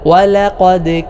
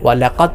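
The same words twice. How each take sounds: First: The final d is released with an echo. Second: The final d is cut short without echo. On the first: The speaker calls it right. "ഖൽഖല അഥവാ ചലനശബ്ദം ... നൽകിക്കൊണ്ടാണ് ഉച്ചരിക്കേണ്ടത്" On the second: The speaker calls it wrong. "പലരും ഓതുന്നത് പോലെ ... എന്നല്ല"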